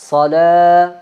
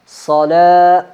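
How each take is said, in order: First: The s sound is heavy and thick. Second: The s sound is heavy and thick.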